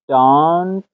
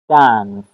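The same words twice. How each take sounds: First: The vowel is a long open 'ah' sound. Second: The vowel is a short flat 'a' sound. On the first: "در بریتیش دانس دانس آ" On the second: "در امریکن اکسنت دانس دانس ساونتی ا"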